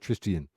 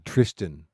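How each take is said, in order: First: The name ends in an extra 'tian' sound. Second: The name ends in a plain 'tan' sound. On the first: The speaker calls it wrong. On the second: The speaker calls it right. "I really have to think"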